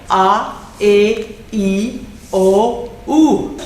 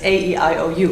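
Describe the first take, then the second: First: The vowel letters are said the Spanish way. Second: The vowel letters are said the English way. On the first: "This is the Spanish pronunciation" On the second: "the English pronunciation"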